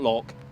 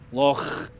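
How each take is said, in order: First: It ends in a hard k sound. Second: It ends in a rough, throat-clearing sound. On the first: The speaker calls it wrong. "Not loch" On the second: The speaker calls it right. "the feeling is you're trying to clear your throat"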